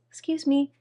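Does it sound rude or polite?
polite. It is said in a plain, polite way.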